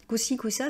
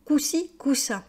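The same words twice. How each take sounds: First: Said in the usual way. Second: «coup-ci, coup-ça» said higher, with a falling tune; quoting the expression. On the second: Shown as a demonstration. Teacher repeats «coup-ci, coup-ça» for the class, higher and falling. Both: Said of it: "ça veut dire oui et non".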